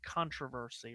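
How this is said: It is said with a North American pronunciation. The speaker calls it right. "this World Cup is in North America, so I feel like if if you say that word, you have to say it controversy"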